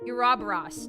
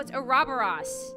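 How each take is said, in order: First: The 'u' sound is pronounced in the word. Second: The 'u' sound is dropped from the word. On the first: The speaker calls it wrong. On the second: The speaker calls it right.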